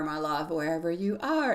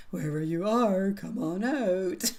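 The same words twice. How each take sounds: First: Said in the usual way. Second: Slow, lightly spooky horror movie call. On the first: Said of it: "sounds like a horror movie". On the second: Pretend. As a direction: drawl it out like a mild mock horror villain. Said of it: "It kinda almost sounds like a horror movie".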